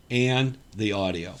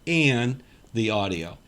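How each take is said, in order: Both takes have the same delivery.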